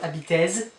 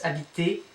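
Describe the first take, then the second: First: The ending is sounded with a final z. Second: The ending is sounded like 'ay', no z. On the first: The speaker calls it wrong. "So it's not habitez" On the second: The speaker calls it right. "it's habitez, et"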